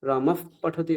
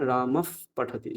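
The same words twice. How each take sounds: First: রামফ পঠতি with the ফ cut short on joined lips; full ফ closure. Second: রামফ with a slow breathed f released before পঠতি; half ফ. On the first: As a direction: close both lips on the ফ of রামফ. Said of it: "এরকম বলবো না". (ওষ্ঠ চেপে পূর্ণ ফ) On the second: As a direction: let air escape through the lips ending রামফ. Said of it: "অর্ধ ফকার বলবো". (অর্ধ ফকার উচ্চারণ) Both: Shown as a demonstration.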